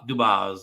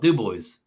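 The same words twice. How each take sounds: First: The name is said with a French pronunciation. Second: The name is said with an English pronunciation. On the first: "they say it the French way too" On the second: "all the locals in P A call it Dubois"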